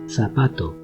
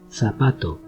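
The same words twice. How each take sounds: First: The first consonant sounds like English th. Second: The first consonant sounds like English th.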